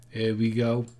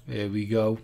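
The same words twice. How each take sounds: The two takes are said the same way.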